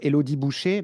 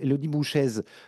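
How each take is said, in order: First: The surname ends with an open 'ay' vowel. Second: The surname ends with an 'ez' sound. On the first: This is how the others have been saying it. "vous dites à cette cette pauvre Élodie Boucher" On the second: This is how the speaker has always said it. "j'ai toujours prononcé de Élodie Bouchaise"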